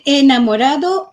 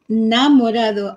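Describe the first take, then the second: First: The word begins with an e vowel sound. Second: The word begins with an n sound. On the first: "se puede decir enamorado" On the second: "cuando la palabra empieza con E de no pronunciarla"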